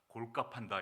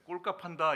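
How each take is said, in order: First: The first consonant is plain. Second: The first consonant is tense. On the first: The speaker calls it right. "이렇게 하셔야 돼요" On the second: The speaker calls it wrong. "이거 잘못된 겁니다"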